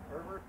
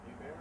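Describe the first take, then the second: First: Herbert said ER-bert with the r and a final t, rising like a question; English Herbert. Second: Hebert said ay-BEHR, silent h and silent t, rising like a question; French-style Hebert. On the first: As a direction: try Herbert as the plain English name, t sounded, unsure. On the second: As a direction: try Hebert the French way, no h and no t, tentative. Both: Shown as a demonstration. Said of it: "Herbert or Hebert?".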